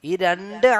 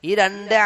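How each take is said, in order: The two takes are said the same way.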